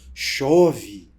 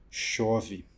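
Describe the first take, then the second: First: It is said with admiration. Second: It is said with sadness.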